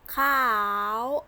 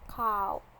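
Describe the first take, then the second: First: The word is said in tone eight. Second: The word is said in tone three. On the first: "Tone eight" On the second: "Tone three"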